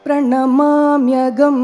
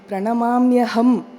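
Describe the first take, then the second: First: The last syllable starts with a g sound. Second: The last syllable starts with an h sound. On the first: The speaker calls it wrong. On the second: The speaker calls it right.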